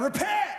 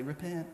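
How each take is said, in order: First: The word is yelled loudly. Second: The word is said quietly and passively.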